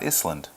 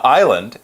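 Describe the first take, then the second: First: The word is said with an S sound. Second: The word is said without an S sound. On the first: The speaker calls it wrong. "it's not Island" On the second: The speaker calls it right. "we don't say the letter S when we say this word"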